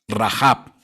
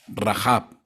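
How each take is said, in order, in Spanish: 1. El nombre termina en sonido b. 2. El nombre termina en sonido b.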